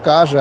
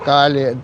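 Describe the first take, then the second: First: The double L sounds like a ZH sound. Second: The double L sounds like an L sound. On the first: This is how people say it here. "тут больше на Ж произносят" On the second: This is how people say it there. "а там"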